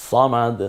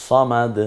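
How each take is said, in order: No difference in how they are said.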